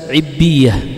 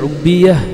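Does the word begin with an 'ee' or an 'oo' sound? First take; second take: ee; oo. First: The word begins with an 'ee' vowel. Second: The word begins with an 'oo' vowel. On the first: "bisa ibbiyah" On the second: "Bisa dibaca ubbiyah"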